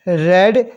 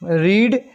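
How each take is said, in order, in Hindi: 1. स्वर छोटा है, 'red' जैसा। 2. स्वर लंबा है, 'reed' जैसा। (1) "फिर रेड" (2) "पहली फॉर्म को रीड बोला जाता है"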